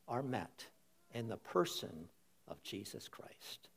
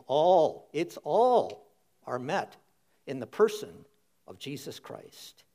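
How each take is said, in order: First: Hushed, breathy-free whisper of awe. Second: Louder, punching ALL; said again, emphatic. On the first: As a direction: drop it to a near whisper, full of wonder. Preacher drops to a hushed whisper. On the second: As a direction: hit "All" hard and proclaim it. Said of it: "Say it again". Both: Real, not acted.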